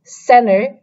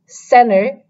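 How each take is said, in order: First: It is spoken in an American accent. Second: The same.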